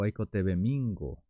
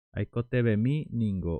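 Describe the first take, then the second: First: "Aiko tebe mingo" with "mi ningo" fused into "mingo"; contracted form. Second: "Aiko tebe mi ningo" with "mi" and "ningo" as separate words; full form. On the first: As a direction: run "mi" and "ningo" together as "mingo". (forma contraída, "mingo" en una sola palabra) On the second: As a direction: say every syllable of "mi ningo" clearly. (forma completa, "mi ningo" separado) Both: Shown as a demonstration.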